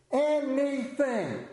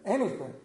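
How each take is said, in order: First: "anything" slow, higher and stretched out; drawn-out emphasis. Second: Said in the usual way. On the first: Acted. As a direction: stretch "anything" out, rising above the earlier ones. Escalating repetition.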